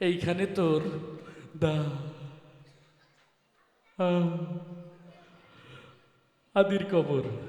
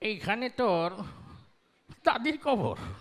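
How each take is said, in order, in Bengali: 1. বক্তা একটি শব্দের প্রথম সিলেবলে তোতলায়। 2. লাইনটি কোনো তোতলামি ছাড়াই সাবলীলভাবে বলা হয়েছে। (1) "সে আবার ওই একটু তোতলা টাইপের" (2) "একজন মুরব্বী মানুষ, বুড়ো মানুষ, পান খেতে খেতে আসছে"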